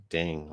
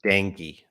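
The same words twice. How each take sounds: First: Dang as one syllable, no final "ee"; mispronounced Dang. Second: Dengue in two syllables, "DENG-ghee"; corrected Dengue. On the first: Real, not acted. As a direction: say Dang for dengue, dropping the ending. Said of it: "I don't know how to pronounce it". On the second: Shown as a demonstration. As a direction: say Dengue with a final "ee". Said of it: "that's pronounced dengue".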